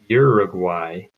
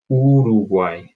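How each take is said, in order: First: It is said with English vowel sounds. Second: It is said with Spanish vowel sounds. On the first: The speaker calls it wrong. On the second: The speaker calls it right.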